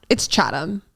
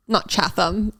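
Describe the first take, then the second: First: Chatham said CHAT-um, unstressed second syllable; right pronunciation. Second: Chatham said CHAT-ham, full second syllable; wrong pronunciation. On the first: Teaching the local way: Chatham said CHAT-um. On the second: Mocking the outsider's version: Chatham as CHAT-ham. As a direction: Chatham stretched out like a tourist. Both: Shown as a demonstration.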